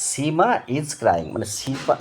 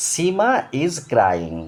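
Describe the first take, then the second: First: Said in the usual way. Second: "Seema is crying" very slow with "Seema" raised in pitch; slow and high teacher reading; slow model reading. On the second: Shown as a demonstration. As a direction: dictate "Seema is crying" slowly, lifting the name. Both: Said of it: "এবার দেখো".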